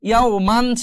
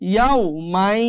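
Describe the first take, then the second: First: The phrase ends in a clear n sound. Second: The n merges into the following y sound. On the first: "ইয়াও মান ছিল" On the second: "কিন্তু এখন উচ্চারণ হবে ইয়াও মাই"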